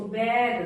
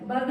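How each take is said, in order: First: Said in the usual way. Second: बग with a short 'uh' vowel; wrong reading. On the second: Shown as a demonstration. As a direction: misread bag as बग, rhyming with "bug". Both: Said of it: "बग नहीं बोलेंगे इसको".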